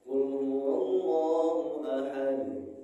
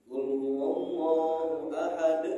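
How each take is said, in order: First: The final consonant bounces cleanly with no vowel. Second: The final consonant ends with an added catch and vowel. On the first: The speaker calls it right. "Yang benar" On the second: The speaker calls it wrong. "sering ada hamzah di sini"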